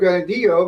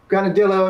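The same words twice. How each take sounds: First: It is said with a Spanish pronunciation. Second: It is said with an American English pronunciation. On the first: "instead of granadillo because ... we don't expect to pronounce things in Spanish" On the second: "just like Americans say uh, granadillo"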